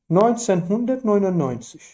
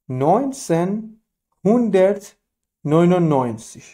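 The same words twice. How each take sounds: First: Said in the usual way. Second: نوینسن هوندرت نوینوناینزیگ said slowly, one word at a time with pauses between; slow and broken up. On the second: Shown as a demonstration. Teacher repeating the year slowly for learners. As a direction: spell the year out word by word for students.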